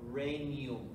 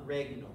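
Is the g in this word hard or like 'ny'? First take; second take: like ny; hard. First: The g blends into a soft 'ny' sound. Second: The g is sounded as a hard g. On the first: The speaker calls it right. "the G M is like the Spanish ñ" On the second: The speaker calls it wrong. "not regnum"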